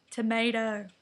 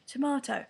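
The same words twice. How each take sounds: First: American "tomato", said "tuh-MAY-doh"; American accent. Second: British "tomato", said "tuh-MAH-toh"; British pronunciation. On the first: Immigrant girl practising to fit in, American accent on "tuh-MAY-doh". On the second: Girl recalling her accent practice, British "tomato" as tuh-MAH-toh. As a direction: say "tomato" with a broad AH and a crisp T. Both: Shown as a demonstration. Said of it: "trying to speak American".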